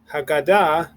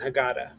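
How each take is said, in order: First: It is said with Modern Hebrew vowels and stress. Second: It is said with American Jewish vowels and stress. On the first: "we have the words matzah and Haggadah" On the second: "a lot of times people say"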